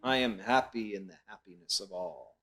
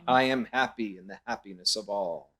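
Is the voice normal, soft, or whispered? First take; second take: soft; normal. First: It is said in a softer voice. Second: It is said in a normal voice.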